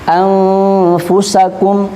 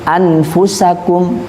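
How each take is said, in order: First: The n is hidden and nasalized. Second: The n is pronounced clearly and fully. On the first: The speaker calls it right. "biasanya kan bacanya" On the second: The speaker calls it wrong. "Nun sukun dibaca idhar"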